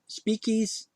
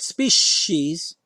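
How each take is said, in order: First: The middle consonant is a k sound. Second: The middle consonant is an sh sound. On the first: "a c that sometimes sounds like a k" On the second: "not species"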